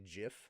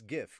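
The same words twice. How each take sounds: First: It starts with a soft j sound. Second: It starts with a hard g sound. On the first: The speaker calls it wrong. "I'm not one of those people that say GIF" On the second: The speaker calls it right. "it's GIF graphics"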